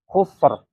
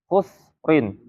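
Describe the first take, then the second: First: The word ends abruptly on a bare r. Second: The word ends with a vowel and n. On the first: The reader stops on this word. "harus diwakafkan, dibacanya khusr" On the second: The reader continues without stopping. "Kalau di, tidak diwakafkan"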